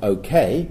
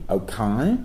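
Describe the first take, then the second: First: Said in the usual way. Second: "okay" as broad Cockney "oh-kye"; hyper-Cockney. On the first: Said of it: "a hyper-Cockney version of". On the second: Retold or imitated. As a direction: turn the end of "okay" into a wide Cockney "eye". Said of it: "he uses a hyper-Cockney version".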